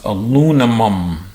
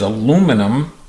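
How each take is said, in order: First: Some sounds are swapped around within the word. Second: The sounds come in their usual order. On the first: The speaker calls it wrong. "the auditory dyslexic responds" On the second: The speaker calls it right. "The normal pronunciation is"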